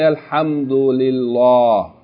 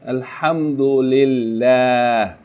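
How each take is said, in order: First: The L sound is heavy and full. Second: The L sound is light and thin. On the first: The speaker calls it wrong. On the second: The speaker calls it right.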